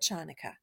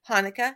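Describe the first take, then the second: First: The word begins with a throaty ch sound. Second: The word begins with a plain h sound. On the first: "Ch, ch, ch, Chanukah" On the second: "different ways to spell it and say it in English"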